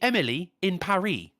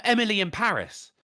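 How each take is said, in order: First: Paris said "pa-REE", silent S; French-style title. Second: Paris with the final S sounded; Paris ending in "iss"; English title. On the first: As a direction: rhyme Paris with "Emily". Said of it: "it's actually meant to be". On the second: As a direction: say Emily in Paris as spelt. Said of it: "actually meant to be". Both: Shown as a demonstration.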